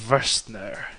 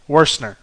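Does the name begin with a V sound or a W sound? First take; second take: V sound; W sound. First: The name begins with a V sound. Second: The name begins with a W sound. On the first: The speaker calls it wrong. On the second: The speaker calls it right.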